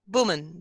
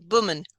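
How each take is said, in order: First: The word starts with closed lips, a b sound. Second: The same.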